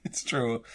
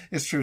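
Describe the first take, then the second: First: Whisper. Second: Said in the usual way. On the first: Shown as a demonstration. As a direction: breathe it secretly.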